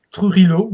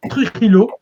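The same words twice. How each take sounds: First: Trujillo said the Spanish way, trilled r and sounded j; Spanish pronunciation. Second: Said in the usual way. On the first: Shown as a demonstration. Historian naming a Mexican professor, saying Trujillo in Spanish. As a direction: give Trujillo a light Spanish accent, tru-HEE-yo with a rolled r. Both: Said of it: "je vais le, vais le prononcer, euh, un peu à l'espagnol".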